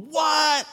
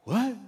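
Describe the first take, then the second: First: Loud, very high mock shriek; full-on imitation of kids losing it; freaking-out shout. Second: High, brief mock-stunned "what"; mildly stunned. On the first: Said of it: "the kids are freaking out". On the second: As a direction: imitate a class caught off guard. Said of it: "the class just took a breath".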